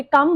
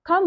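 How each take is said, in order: First: "come" with no puff on the K; unaspirated K. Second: "come" with a puff of air on the K; aspirated K. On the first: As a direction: say "come" as a dry "kum". ("come" को बिना हवा के "कम" बोलना) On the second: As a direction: say "come" as "khum". ("come" को हवा के साथ "खम" बोलना) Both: Shown as a demonstration. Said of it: "ना कि come बोल रहे हैं".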